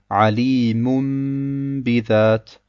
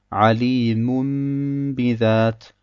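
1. Der Nasallaut m vor dem b wird lang gehalten. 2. Der Nasallaut m vor dem b wird lang gehalten.

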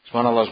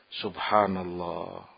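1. Diucapkan dengan cepat dan tergesa-gesa. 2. Diucapkan dengan pelan dan tenang. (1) "membacanya dengan cepat misalnya" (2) "Dilakukan dengan tumaknina. ... Satu persatu dihayati"

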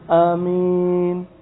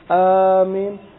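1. Vokal pertama dibaca pendek. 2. Vokal pertama dipanjangkan. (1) "dipendekkan dalam wazan fa'il" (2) "dengan dipanjangkan dari wazan fa'il"

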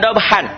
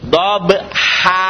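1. Kata ini berakhir dengan bunyi 'n'. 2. Kata ini berakhir dengan vokal biasa. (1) "Jangan dob-han" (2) "Dua fatah dibaca satu jika dihentikan"

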